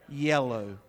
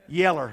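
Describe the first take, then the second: First: The word ends with a clear 'oh' sound. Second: The word ends with an 'er' sound. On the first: The speaker calls it wrong. "How do you say it properly? Yellow. So unnatural to say it that way" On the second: The speaker calls it right. "That's right"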